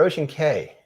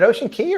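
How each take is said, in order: First: The last word rhymes with 'say'. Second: The last word rhymes with 'see'. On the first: The speaker calls it wrong. "is it Ocean Key or Ocean K?" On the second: The speaker calls it right. "is it Ocean Key or Ocean K?"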